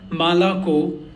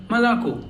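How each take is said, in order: First: "Malako" with every vowel full and open; unreduced vowels. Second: "Malako" with first vowels between A and O, last O full; reduced vowels. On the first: Teacher showing learners the mistake, "Malako" with unreduced vowels. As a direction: sound out each syllable of "Malako" equally fully. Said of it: "it's not Malako". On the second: Teacher correcting the mistake, "Malako" with reduced vowels. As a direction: shorten the first vowel of "Malako", stress the final O. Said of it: "in between A and O". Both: Shown as a demonstration.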